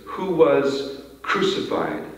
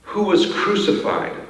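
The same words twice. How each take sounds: First: Slow, weighty "Who was crucified?". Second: Said in the usual way. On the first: Shown as a demonstration. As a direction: let "Who was crucified?" sink in slowly. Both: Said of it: "slow these phrases down".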